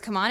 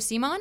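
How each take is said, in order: First: The name sounds like the phrase 'come on'. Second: The name sounds like the first name 'Simon'. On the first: The speaker calls it right. "it's Come On instead of Simon?" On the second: The speaker calls it wrong. "instead of Simon"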